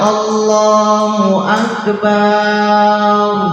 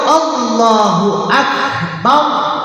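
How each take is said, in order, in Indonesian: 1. Vokal setelah b dipanjangkan. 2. Vokal setelah b pendek. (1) "ba-nya dipanjangin" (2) "artinya Allah Maha Besar"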